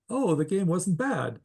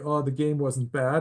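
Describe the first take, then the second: First: The tone sounds positive and pleased. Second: The tone sounds unhappy and disappointed. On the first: The game was actually enjoyable. "that conveys a positive sentiment" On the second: The outcome was disappointing. "the tone of voice says, oh, I was not happy with the outcome of the game"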